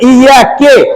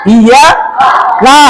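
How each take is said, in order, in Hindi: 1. शब्द 'ke' की आवाज़ से खत्म होता है। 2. शब्द 'ka' की आवाज़ से खत्म होता है। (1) "लेकिन यहां पर पढ़ देना कि" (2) "इया का है"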